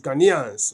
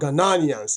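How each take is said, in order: First: It is said with three syllables, no extra one. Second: It is said with an extra syllable, four in all. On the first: The speaker calls it right. "That's the correct pronunciation" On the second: The speaker calls it wrong. "It's not Ghananians"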